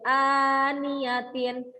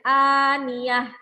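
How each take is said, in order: First: The word ends with a full -atin ending. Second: The word ends with a short -ah sound. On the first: The word is read in connected speech. "bacanya yang awalnya jadi aniyatin" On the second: The reader stops at this word. "ketika wakof maka harus dibaca aniyah"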